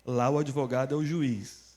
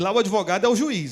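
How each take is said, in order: First: It is spoken more slowly and deliberately. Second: It is spoken at a normal, quicker pace.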